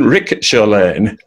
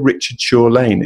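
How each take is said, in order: First: The first name is said with a 'k' sound. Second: The first name is said as in standard English. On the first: The speaker is a local who knows the place. "you mean Rickett Shaw Lane? ... How could you end up pronouncing that?" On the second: The speaker is not from the area. "do you know where Richard Shaw Lane is?"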